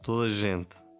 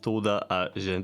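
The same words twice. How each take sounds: First: The words are run together and contracted. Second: Each word is pronounced fully and separately. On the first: The speaker calls it right. "they say" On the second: The speaker calls it wrong. "They don't say"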